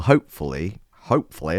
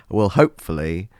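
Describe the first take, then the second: First: Slipping into a Northern accent; Northern English accent. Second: Said in the usual way. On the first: Real, not acted. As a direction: say it with accidental Northern vowels. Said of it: "I went into Northern". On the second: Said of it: "I don't know why I went into Northern".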